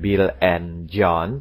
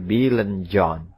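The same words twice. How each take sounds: First: The word 'and' is said fully and strongly. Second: The word 'and' is said weakly and reduced. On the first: "saya tidak mengatakan" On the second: "Itulah yang namanya weak stress"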